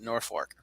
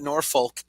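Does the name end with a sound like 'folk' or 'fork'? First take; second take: fork; folk. First: The second syllable sounds like 'fork'. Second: The second syllable sounds like 'folk'. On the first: This is how locals actually say it. "they pronounce it Norfolk" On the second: This is how the name is written. "they spell it Norfolk"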